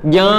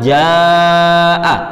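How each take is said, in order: First: The long vowel is mixed with a nasal hum. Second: The long vowel is open with no nasal hum. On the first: The speaker calls it wrong. "kalau dicampur dengan gunnah" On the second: The speaker calls it right. "yang betul kan jaa"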